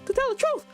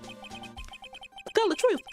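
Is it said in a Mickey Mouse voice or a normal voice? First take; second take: Mickey Mouse; normal voice. First: It is said in a Mickey Mouse voice. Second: It is said in a normal voice.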